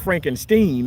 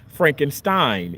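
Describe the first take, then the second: First: The last syllable sounds like 'steen'. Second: The last syllable sounds like 'stine'. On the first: The speaker calls it wrong. "it's not Frankenstein" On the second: The speaker calls it right. "S T E I N is Stein"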